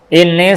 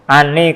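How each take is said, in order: First: The word begins with an 'i' vowel. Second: The word begins with an 'a' vowel. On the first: The clause starts a new sentence. "kalau dibaca ini berarti mulai baru" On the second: The clause continues the sentence as its predicate. "Kalau dibaca anni berarti khobar"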